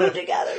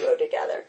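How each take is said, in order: First: High cue through a laugh; director's cue. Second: Breathy whisper of the cue. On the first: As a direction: mimic the director coaxing them closer. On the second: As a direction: whisper it like a director off camera. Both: Retold or imitated. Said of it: "the director was clearly, like, doing this".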